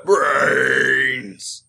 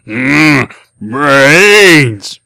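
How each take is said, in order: First: Zombie voice. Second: Loud groaning zombie brains; zombie moan. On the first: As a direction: moan it like a hungry zombie. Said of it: "grunt like a zombie and say "brains". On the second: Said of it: "in my hungriest zombie voice". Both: Acted.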